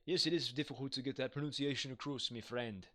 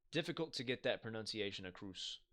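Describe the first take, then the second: First: A hint of a Scottish accent, half-joking; an amateur Scottish accent put on for the chat. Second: Said in the usual way. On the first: Shown as a demonstration. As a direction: repeat the line in a light mock Scottish accent. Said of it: "my attempt at, uh, having a, I guess, a, like, a Scottish accent". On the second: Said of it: "that's my attempt at".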